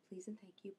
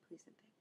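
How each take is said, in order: First: Softly, to herself; a quiet reminder; soft repeat. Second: Whispered reminder to herself; a fading whisper to herself. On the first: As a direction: mutter the advice under breath. Repeating the friend's polite advice. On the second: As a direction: breathe it out almost silently. Whispered echo of the advice. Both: Retold or imitated.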